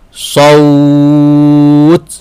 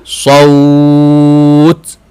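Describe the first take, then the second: First: The word ends in a consonant, vowel lengthened. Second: The same.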